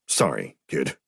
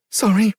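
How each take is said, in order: First: A lower, clipped captain's apology; gruff captain's sorry. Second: Much higher, loud, choked-up apology; tearful girl's sorry. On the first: Captain apologising to the kid, lower voice. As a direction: apologise briskly, voice dropped lower. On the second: Sobbing sister apologising to Shane, high and tearful. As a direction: blurt the sorry through tears. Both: A narrator's reading.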